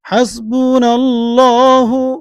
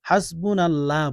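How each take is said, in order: First: The word ends with a final u vowel. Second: The word ends without a final vowel. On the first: The speaker calls it right. "আমি যেভাবে বলছি সেভাবে উচ্চারণ করেন।" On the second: The speaker calls it wrong. "হাসবুনাল্লাহ বলবেন না"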